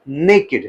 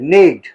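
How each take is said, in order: First: The word is said as two syllables. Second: The word is said as one syllable. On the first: The speaker calls it right. "It is नेकेड" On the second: The speaker calls it wrong. "It is not नेक्ड"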